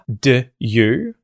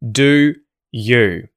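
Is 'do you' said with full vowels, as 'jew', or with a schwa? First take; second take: schwa; full vowels. First: The first vowel is reduced to a schwa. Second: Both words keep a full oo vowel. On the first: "we turn the oo vowel sound in the word do into a schwa" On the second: "same vowel sound, but we have de and ye"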